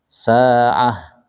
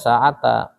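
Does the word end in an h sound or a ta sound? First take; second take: h sound; ta sound. First: The word ends in a silent h sound. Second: The word ends with a full ta syllable. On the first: The speaker calls it right. "dia dibacanya sukun" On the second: The speaker calls it wrong. "Kalau berhenti di sini enggak boleh sa'ata"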